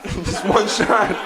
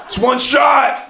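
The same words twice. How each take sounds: First: Slow repeat, cracking up; laughing through the line. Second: Slow, loud, intense mock Walken delivery; hammed-up Russian roulette line, slow and loud; mock Deer Hunter line. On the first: Retold or imitated. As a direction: say it again but laugh through it. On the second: Deer Hunter quote acted out.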